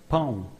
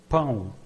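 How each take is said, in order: Both takes have the same delivery.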